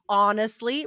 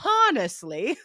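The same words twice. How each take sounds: First: The first H sound is silent. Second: The first H sound is pronounced. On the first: The speaker calls it right. "you cannot say the H" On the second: The speaker calls it wrong. "you could not get higher than a six for pronunciation"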